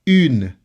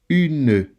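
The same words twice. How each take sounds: First: The word ends on the N sound. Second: A vowel is sounded after the N. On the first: The speaker calls it right. "the E is silent" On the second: The speaker calls it wrong. "Notice that I don't say une"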